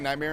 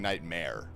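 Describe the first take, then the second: First: The word has an East Coast pronunciation. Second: The word has a standard, non-regional pronunciation. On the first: This is how the speaker normally says it. "I say Nightmare ... that's my East Coast dialect kicking in there" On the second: This is how others expect it to be said. "instead of saying Nightmare"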